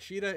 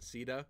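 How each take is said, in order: First: The name begins with a 'sh' sound. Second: The name begins with an 's' sound. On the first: This is the original Japanese form of the name. The speaker calls it right. "Sheeta is like the standard pronunciation. It's the Japanese pronunciation" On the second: This is the form used in one spin-off game. The speaker calls it wrong. "they went with the whole Caesar pronunciation"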